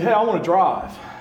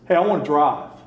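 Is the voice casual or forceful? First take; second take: casual; forceful. First: It is said in a casual, mild voice. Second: It is said in a firmer, more forceful voice. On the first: It is a simple request. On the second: The request is a serious demand.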